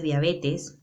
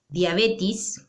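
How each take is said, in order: First: Said in the usual way. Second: "diabetes" ending in -tis, "diabetis"; common mispronunciation. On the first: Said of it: "lo correcto es diabetes". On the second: Shown as a demonstration. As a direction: turn the last e of "diabetes" into i. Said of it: "cuando lo correcto es diabetes".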